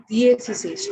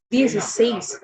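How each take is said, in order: First: "D A C says" without the accent on says; wrong stress. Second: "D A C says" with the accented last syllable, says, stressed. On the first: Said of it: "it should not be". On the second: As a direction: lean on the final "says" in "D A C says". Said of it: "E has an accent on top". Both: Shown as a demonstration.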